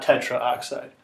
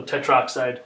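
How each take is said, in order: First: Tetraoxide with the a kept, tetra-oxide; wrong form. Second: Tetroxide said as four syllables, a dropped straight into oxide; correct form. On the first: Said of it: "So tetroxide". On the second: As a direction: say tetroxide, te-TROX-ide, no vowel between tetr and oxide. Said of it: "not tetraoxide". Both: Shown as a demonstration.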